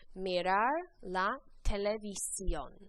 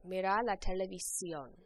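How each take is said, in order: First: The phrase is said at a slower pace. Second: The phrase is said at a faster pace.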